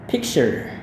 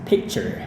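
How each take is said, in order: No difference in how they are said.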